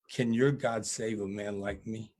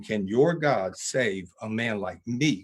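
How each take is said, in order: First: Understated, subdued retelling of a tearful question; quivering plea. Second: Slow, weighty repeat, leaning on YOUR and ME in "Can your God save a man like me"; powerful question. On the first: Death row inmate asks preacher about salvation, quivering plea. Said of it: "and he's quivering". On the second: Preacher repeats inmate's question to the audience, slow and powerful. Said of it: "the most simple, powerful question". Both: Retold or imitated.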